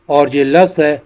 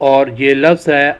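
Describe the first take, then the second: The two takes are said the same way.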